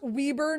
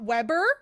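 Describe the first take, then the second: First: The first syllable sounds like 'wee'. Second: The first syllable sounds like 'web'. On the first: The speaker calls it right. "pronounced Weber" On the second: The speaker calls it wrong. "not Weber"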